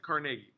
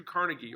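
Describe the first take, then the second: First: Carnegie with a full NAY in the middle, car-NAY-gee; correct pronunciation. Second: Carnegie with a weak, unstressed middle syllable, CAR-nuh-gee; familiar pronunciation. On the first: Teacher shows how it is really pronounced, Carnegie as car-NAY-gee. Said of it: "is actually how you pronounce it". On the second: Teacher gives the name he grew up with, Carnegie as CAR-nuh-gee. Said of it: "I grew up with Carnegie". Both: Shown as a demonstration.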